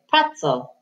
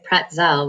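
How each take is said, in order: First: The stress is on the first syllable. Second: The stress is on the second syllable. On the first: The speaker calls it right. "the accent goes on the first syllable" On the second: The speaker calls it wrong. "we don't say pretzel"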